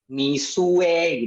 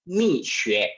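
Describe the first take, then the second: First: The second syllable is said with a plain u. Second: The second syllable is said with a ü sound. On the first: The speaker calls it wrong. "ada yang bacanya Misue gitu ya" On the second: The speaker calls it right. "yang benar adalah e, untuk melafalkan brand ini adalah Mixue"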